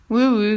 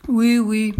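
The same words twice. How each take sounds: First: Mildly grumbled assent; grumbling. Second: Puzzled, slightly louder assent; mildly baffled king; perplexed. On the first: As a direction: grumble it as a grudging king. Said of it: "grommela le roi". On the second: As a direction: agree while clearly at a loss. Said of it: "dit le roi très perplexe". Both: A narrator's reading.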